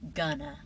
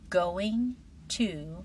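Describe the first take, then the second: First: The words are blended into one short form. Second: Both words are pronounced fully and separately. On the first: "It's faster because your mouth makes fewer movements" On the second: "very carefully"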